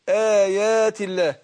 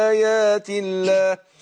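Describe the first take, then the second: Both takes have the same delivery.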